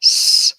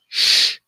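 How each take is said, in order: First: A long voiceless "S" hiss; hissed s sound. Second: A voiceless "sh" hush; sh sound. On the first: Teacher demonstrating the Hebrew letter, voiceless hiss. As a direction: hiss a plain s. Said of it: "pronounced either as". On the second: Teacher demonstrating the Hebrew letter, voiceless sh. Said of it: "or as a". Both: Shown as a demonstration.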